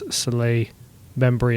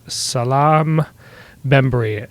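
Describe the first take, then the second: First: The first name ends with an open vowel. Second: The first name ends with an 'm' sound. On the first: The speaker calls it right. "probably the correct uh, pronunciation" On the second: The speaker calls it wrong. "I am not doing really good"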